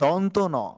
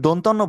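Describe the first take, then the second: First: The name is said as two separate parts. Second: The name is run together as one word. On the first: The speaker calls it right. "বরঞ্চ বলতে হবে দন্ত ন" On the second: The speaker calls it wrong. "যদি দন্তন্য বলা হয় তাহলে আমাদের বলাটি কিন্তু ভুল হবে"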